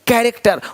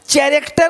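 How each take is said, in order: First: The word begins with a 'k' sound. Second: The word begins with a 'ch' sound. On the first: The speaker calls it right. "यहाँ भी C H भी का है" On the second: The speaker calls it wrong. "चैरेक्टर नहीं"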